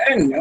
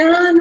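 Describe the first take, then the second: First: The no sounds harsh and dismissive. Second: The no sounds gentle and kind. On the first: The answer is rejected with scorn. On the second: The answer is corrected kindly.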